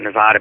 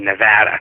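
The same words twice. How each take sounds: First: The middle vowel is a broad 'ah' sound. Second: The middle vowel is a flat 'a' sound.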